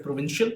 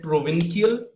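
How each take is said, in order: First: "provincial" with a SH sound, pro-VIN-shul; correct provincial. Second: "provincial" said with a hard K, as pro-VIN-kee-al; mispronounced provincial. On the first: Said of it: "instead of provincial". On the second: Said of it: "I said provincial instead of". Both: Shown as a demonstration.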